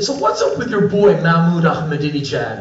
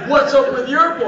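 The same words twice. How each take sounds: First: Casually pointed question; needling question. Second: High, pointed comeback; retort thrown back. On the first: American visitor asks Iranian guests about their president, casually needling. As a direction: toss out the provocative question lightly. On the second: Iranian guests throw visitor's question back at him, indignant retort. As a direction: turn the question back, much higher. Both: Retold or imitated. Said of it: "What's up with your boy shit with us".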